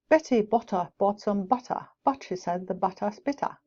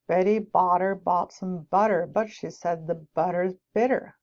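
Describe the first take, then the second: First: It is spoken in a British accent. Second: It is spoken in an American accent.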